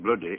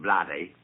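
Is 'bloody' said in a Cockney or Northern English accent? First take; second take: Northern; Cockney. First: It is said in a Northern English accent. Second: It is said in a Cockney accent. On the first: "putting it in the Northern dialect" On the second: "like a Cockney would"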